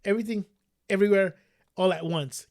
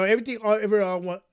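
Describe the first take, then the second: First: Careful, word-by-word title; "everything", pause, "everywhere", pause, "all at once"; slow down through a tongue twister; said slowly. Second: Rushed, stumbling over the title; fumbled tongue twister; tongue-tied. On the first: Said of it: "Gotta say that slow". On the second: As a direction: trip over "everything" and "all", words tumbling out jumbled. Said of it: "tongue twister there". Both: Real, not acted.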